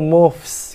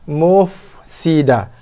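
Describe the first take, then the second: First: The f is cut short and the s doubled. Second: The f is held fully before a single s. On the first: The speaker calls it wrong. "dibaca fa tu cepat sangat, pendek sangat" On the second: The speaker calls it right. "habiskan fa, baru settlekan sin"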